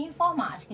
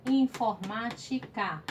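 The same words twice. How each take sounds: First: Said in the usual way. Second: "Informática" stretched slowly as in-for-má-ti-ca; split into syllables. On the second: Shown as a demonstration. Teacher demonstrating division to pupils, "Informática" in slow separate syllables. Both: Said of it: "separe essas palavras em sílabas".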